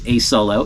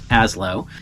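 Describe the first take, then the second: First: It sounds like the two words 'a solo'. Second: It sounds like the single word 'aslo'. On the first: The speaker calls it wrong. "It is not pronounced A Solo" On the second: The speaker calls it right. "It is pronounced Aslo"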